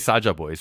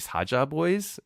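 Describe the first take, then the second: First: The S at the start is hard. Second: The S at the start is soft. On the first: This is how English speakers say it. "you say Saja boys" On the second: This is how it is said in Korean. "in Korean it's actually Saja boys. It's like a softer S sound"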